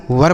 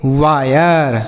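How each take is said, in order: First: वर as one syllable, "vur"; wrong reading. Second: वायर drawn out with an "aay" glide; correct reading. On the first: Teacher tests the rule on students, वर in one syllable. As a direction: say वर with short uh and no glide. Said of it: "ऐसे नहीं पढ़ेंगे". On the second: Teacher shows students the rule, वायर with slow aay glide. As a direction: say वायर slowly as "vaa-yar". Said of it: "इसे हम पढ़ेंगे वायर". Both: Shown as a demonstration.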